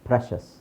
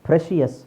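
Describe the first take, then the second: First: The ending is a single 'shus' syllable. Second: The ending has an extra 'shee-us' syllable. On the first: The speaker calls it right. "ಶಸ್ ಅಂತ ಹೇಳಬೇಕು" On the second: The speaker calls it wrong. "No"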